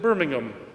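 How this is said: It is said with a British pronunciation.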